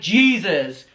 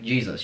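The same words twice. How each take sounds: First: It is said with high energy. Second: It is said with low energy.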